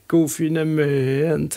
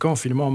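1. Het woord eindigt op een duidelijke Nederlandse 'ment'. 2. Het woord eindigt op een Franse neusklinker.

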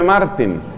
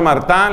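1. El nombre termina en un sonido 'een' claro. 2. El nombre termina en un sonido nasal 'ahn'. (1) "se escribe Martín" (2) "pero se pronuncia Martán"

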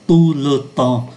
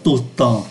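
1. Nguyên âm trong 'le' được phát âm đầy đủ. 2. Nguyên âm trong 'le' bị lược bỏ, nói nhanh. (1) "Thay vì đọc là" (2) "vì đọc nhanh là"

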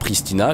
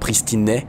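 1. Le nom se termine par la voyelle 'a'. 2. Le nom se termine par la voyelle 'e'. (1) "en français, on dit bien Pristina" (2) "en réalité c'est Pristine, alors je ne sais pas comment on prononce"

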